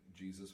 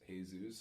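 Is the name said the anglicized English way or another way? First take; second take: anglicized; another way. First: The name is said the anglicized English way. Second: The name is not said the anglicized English way. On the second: "There's Jesus"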